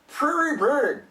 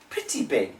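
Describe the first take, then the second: First: The middle consonant is an R sound. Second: The middle consonant is a crisp T sound. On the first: "If it's an R" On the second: "If it's a T, ... now we sound like English people"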